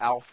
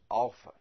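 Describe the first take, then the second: First: Alpha is said with the usual English vowels. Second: Alpha is said with the Greek vowels. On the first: The speaker calls it wrong. "in biology, we can talk about the alpha male" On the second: The speaker calls it right. "But in Greek, ... It's alpha"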